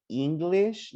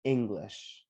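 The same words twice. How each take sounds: First: "English" higher, starting with a long "ee"; "English" as a wrong take, raised, with an E sound; wrong vowel. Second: "English" lower, with a short "ing" start; corrected "English", as "ING-glish"; correct vowel. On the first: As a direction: show the mistaken "EEN-glish" for "English". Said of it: "don't say E". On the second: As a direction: model "English" evenly, no long "ee". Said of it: "No, it's". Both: Shown as a demonstration.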